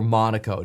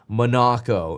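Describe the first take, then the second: First: The name is said with an English accent. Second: The name is said with a European accent. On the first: "with an English accent" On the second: "If you want to say it with a European accent"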